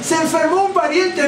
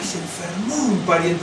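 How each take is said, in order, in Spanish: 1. Se dice con un tono alegre y ligero. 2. Se dice con un tono triste y apenado. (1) "no puedo decir"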